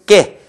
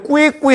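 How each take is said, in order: First: The k goes straight into the vowel. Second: The k is followed by a 'w' glide. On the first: The speaker calls it right. "이것은 깨 이와 같이 발음이 되겠고" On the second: The speaker calls it wrong. "꾸에꾸에 하지 마세요"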